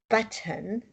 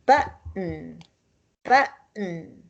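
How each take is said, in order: First: Button with a crisp, fully released t; wrong full t. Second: Button with the t swallowed in the throat; glottal stop t. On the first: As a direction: pronounce every letter of button. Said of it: "we don't say". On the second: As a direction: catch the breath where the t is in button. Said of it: "We say". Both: Shown as a demonstration.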